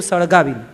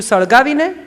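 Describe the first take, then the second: First: સળગાવીને said lower with a falling tune; firm answer. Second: સળગાવીને asked with a rising tune, higher; wondering સળગાવીને as an open question; asking question. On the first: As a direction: settle it: સળગાવીને as a calm final answer. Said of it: "બાપુએ કીધું". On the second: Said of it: "એટલે બાએ પૂછ્યું". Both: Acted.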